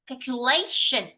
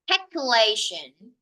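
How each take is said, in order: First: The stress falls on the standard syllable. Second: The stress falls on a misplaced syllable. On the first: The speaker calls it right. "I should read it like calculation" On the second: The speaker calls it wrong. "I have uh, stressed a little bit wrongly for the word"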